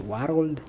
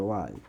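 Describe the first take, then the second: First: Put-on "world" in two syllables, WAR-old; "world" with an extra vowel before the l; accented pronunciation. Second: Said in the usual way. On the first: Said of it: "She used to say world". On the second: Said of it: "She used to say the word world".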